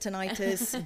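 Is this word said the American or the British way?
American. The word is said the American way. "Americans pronounce it tinnitus"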